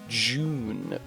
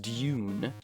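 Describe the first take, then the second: First: It begins with a j sound, 'joon'. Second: It begins with a d plus y sound, 'dyoon'. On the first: "You might even say June, like with a J sound" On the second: "Surely, it's Dune"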